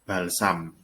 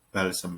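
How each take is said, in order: First: The second syllable has an a vowel. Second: The second syllable has an e vowel. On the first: This is the standard form. "kata bakunya adalah balsam" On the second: This is the nonstandard everyday form. "balsem ini sebenarnya kata yang tidak baku"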